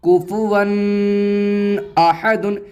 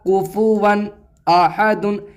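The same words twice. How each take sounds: First: The n sound is held with nasalization. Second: The n sound is clear, without nasalization. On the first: The speaker calls it wrong. "ऐसे नहीं पढ़ा जाएगा" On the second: The speaker calls it right. "ये ऐसे पढ़ा जाएगा"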